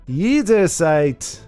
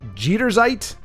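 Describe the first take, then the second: First: The word begins with a Y sound. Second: The word begins with a J sound. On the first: "it's a Y" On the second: "pronounce it the way I did"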